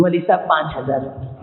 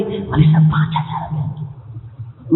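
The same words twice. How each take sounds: First: Said in the usual way. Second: Slow, breathless whispered offer of five thousand; mock whisper. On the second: Preacher mimics a groom offering meager dower, whispered. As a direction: drag out पाँच in a sneaky whisper.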